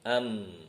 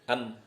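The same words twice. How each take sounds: First: The m sound resonates through the nose. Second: The m sound does not resonate through the nose. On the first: The speaker calls it right. "Kalau masuk ke hidung" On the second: The speaker calls it wrong. "Kalau nggak masuk hidung"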